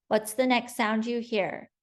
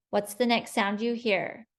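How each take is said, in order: Both takes have the same delivery.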